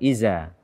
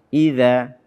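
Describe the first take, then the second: First: The middle consonant is a buzzing 'z' sound. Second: The middle consonant is a soft 'th' sound. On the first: The speaker calls it wrong. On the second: The speaker calls it right.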